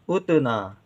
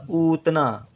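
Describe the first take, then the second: First: "उतना" with a brief first vowel; short u. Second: "उतना" with the first vowel stretched to oo; long oo. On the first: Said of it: "कम देर के लिए". ("उतना" में छोटा उ, कम देर का) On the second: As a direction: hold a long oo to begin "उतना". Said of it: "गलती से बड़ा ऊ लिख दें". ("उतना" को लंबे ऊ से शुरू करके) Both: Shown as a demonstration.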